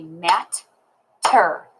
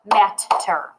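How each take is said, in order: First: "mat-ter" in two slow, separate beats; "mat-ter" spaced out syllable by syllable; clapped syllables. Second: "mat-ter" as one word, both t's distinct; "mat-ter" with the two beats closer together; syllables joined up. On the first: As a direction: break "mat-ter" with a clear pause after "mat". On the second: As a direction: put "mat-ter" together, keeping a tiny break. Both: Shown as a demonstration. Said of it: "I can clap it and say".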